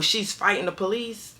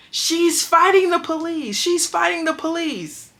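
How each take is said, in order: First: Said in the usual way. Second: High, loud, slow alarm call to the guards; imitated yell. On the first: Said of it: "scream out the door". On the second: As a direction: drag it out like raising the alarm across the dorm. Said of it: "And yells out".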